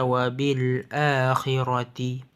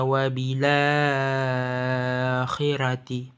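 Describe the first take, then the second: First: A glottal stop is heard before 'akhirati'. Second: The glottal stop is dropped, the vowel joins 'l'. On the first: "yang berbunyi min qablika wa bil akhirati" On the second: "Harakatnya pindah atau maju ke depan kepada huruf sakin ... Sekaligus huruf hamzah tersebut hilang"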